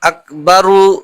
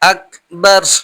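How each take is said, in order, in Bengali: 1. শেষে একটি অতিরিক্ত স্বর যোগ করা হয়। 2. শব্দটি শেষ ব্যঞ্জনে থেমে যায়। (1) "এখানে অবশ্যই টেনে পড়া যাবে না" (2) "থেমে যেতে হবে"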